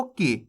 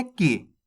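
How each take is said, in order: First: "की" short and soft, vowel not drawn out. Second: "की" clipped short and soft. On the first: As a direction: clip "की" quickly. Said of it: "खींच के नहीं करना". ("की" बिना खींचे, छोटा) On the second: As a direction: say "की" briefly, no stretch. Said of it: "इतना ही उच्चारण करना आपको". ("की" छोटा और धीमा) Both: Shown as a demonstration.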